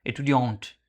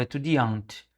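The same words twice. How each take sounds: First: Etudiante said with no s, starting straight on e-, ending in a nasal ont; proper French Etudiante; corrected pronunciation. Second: Estudiante said with an extra s sound at the start, es-tu-di-ante; mispronounced estudiante; wrong old pronunciation. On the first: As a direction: fix it: Etudiante, clean e- onset and nasal ending. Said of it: "tem que falar ont". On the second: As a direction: show the mistake: estudiante with a Portuguese es- onset. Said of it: "eu falava estudiante". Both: Shown as a demonstration.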